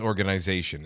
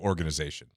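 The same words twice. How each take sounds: First: It is said with a Canadian pronunciation. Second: It is said with an American pronunciation. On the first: "that's how all the Canadians say it" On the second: "instead of"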